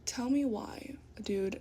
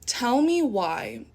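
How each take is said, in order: First: Unvoiced aside whisper; whispered disbelief. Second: Said in the usual way. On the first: Real, not acted. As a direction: breathe it out like a secret. Repeated line dropped to whisper.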